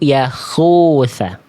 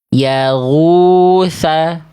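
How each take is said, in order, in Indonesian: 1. Konsonan di tengah itu frikatif tenggorokan tak bersuara. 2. Konsonan di tengah itu frikatif tenggorokan bersuara.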